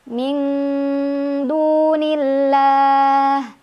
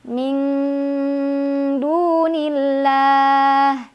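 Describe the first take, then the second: The two takes are said the same way.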